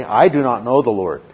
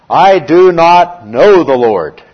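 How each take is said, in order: First: Said in the usual way. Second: Loud, slow and higher, a proud king's refusal; defiant Pharaoh. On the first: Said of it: "And what does he say?". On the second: Retold or imitated. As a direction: boom it out slowly like a haughty Pharaoh. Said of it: "And what is Pharaoh's response?".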